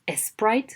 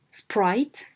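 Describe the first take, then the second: First: An extra vowel is added before the S. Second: The word starts directly with the S cluster. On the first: The speaker calls it wrong. "don't add an element" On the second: The speaker calls it right. "sprite and not"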